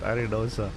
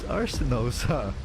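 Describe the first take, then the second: First: The name is said without an s sound. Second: The name is said with an s sound. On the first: The speaker calls it wrong. "Why do I keep saying it like that" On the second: The speaker calls it right. "It's Arsenosa"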